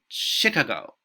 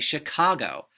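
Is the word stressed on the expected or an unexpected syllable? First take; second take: unexpected; expected. First: The stress falls on an unexpected syllable. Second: The stress falls on the expected syllable. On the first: The speaker calls it wrong. "those are wrong, that those don't sound correct" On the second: The speaker calls it right. "It would tell you to say"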